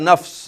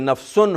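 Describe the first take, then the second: First: The word ends on a bare consonant. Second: The word ends with an -un syllable. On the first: The reader stops on this word. "वहाँ रुकना है तो बन जाएगा नफ्स" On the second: The reading continues without stopping. "दो पेशे हैं"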